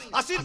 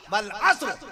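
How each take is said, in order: First: "عصر" as a-sir, two syllables; mistaken pronunciation. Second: "والعصر" as wal-asr, no vowel before r; correct Quranic pronunciation. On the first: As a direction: slip an i between s and r in "عصر". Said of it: "نہیں، عصر نہیں". ("عصر" میں صاد پر زیر) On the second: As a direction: recite "والعصر" with s and r joined. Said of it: "باقاعدہ تلفظ بتا دیا". ("والعصر" میں صاد ساکن) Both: Shown as a demonstration.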